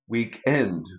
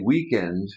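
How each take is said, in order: First: It is said the British way. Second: It is said the North American way. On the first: A weekend is a time. "here in the U K they say weekend" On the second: A weekend is a thing. "North Americans say weekend"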